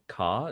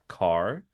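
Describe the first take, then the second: First: The final R sound is dropped. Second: The final R sound is pronounced. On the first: "don't pronounce their R's. So we say car" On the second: "instead of car"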